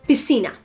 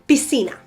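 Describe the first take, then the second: No difference in how they are said.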